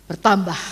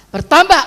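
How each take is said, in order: First: Said in the usual way. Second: Higher and louder, driving it home; emphatic repeat. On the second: Acted. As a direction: punch the repeat up and out. Preacher repeats word for emphasis. (diulang lebih keras dan tinggi)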